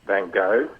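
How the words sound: The name is said with an American accent. "The Americans say"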